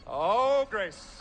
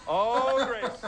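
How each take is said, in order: Both takes have the same delivery.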